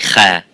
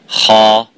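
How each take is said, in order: First: The letter is said light, with an empty mouth. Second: The letter is said heavy, with a full mouth. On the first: The speaker calls it wrong. "and you don't say Kha" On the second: The speaker calls it right. "So you say Kha"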